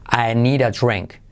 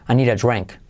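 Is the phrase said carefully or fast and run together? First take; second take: carefully; fast. First: Each word is said carefully and separately. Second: The words are said fast and run together.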